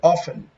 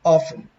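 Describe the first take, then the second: The two takes are said the same way.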